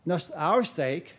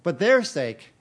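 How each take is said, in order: First: "our" leaned on, slow and falling; slow deliberate "our sake"; stress on our. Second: "their" hit louder and higher; stress on their. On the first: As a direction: press the word "our" with a slow fall. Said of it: "not just for our sake, but their sake". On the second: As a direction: punch "their" to set it against "our". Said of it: "not just for our sake". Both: Shown as a demonstration.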